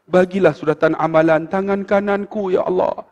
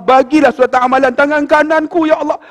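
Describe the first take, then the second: First: Restrained, even prayer recitation; understated retold supplication; murmured prayer. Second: High, rising plea to God; imitated tearful prayer; tearful pleading. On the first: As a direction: pray evenly, as if into someone's ear. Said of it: "dia main bisik kat telinga". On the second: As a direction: plead in a much higher voice, acting moved to tears. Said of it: "Sambil duk basuh tu teriak".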